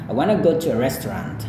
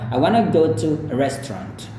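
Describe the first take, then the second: First: It is said in an American accent. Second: It is said in a British accent. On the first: "kalau gaya Amerika" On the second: "kalau gaya Inggris"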